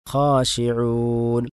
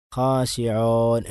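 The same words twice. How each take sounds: First: Slow ഖാശിഊൻ with a clear, pure long u; correct waw. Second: ഖാശിഊൻ with the long u blurred toward o; wrong waw. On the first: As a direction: give ഖാശിഊൻ a clean long u. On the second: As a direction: say ഖാശിഊൻ the faulty, o-ish way. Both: Shown as a demonstration. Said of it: "എന്നല്ല".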